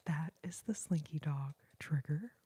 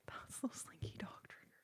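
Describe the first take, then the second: First: Said in the usual way. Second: Very soft, airy whisper; hushed ASMR whisper; whispered repeat. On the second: Real, not acted. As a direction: drop right down and whisper it close. Repeats the line much softer.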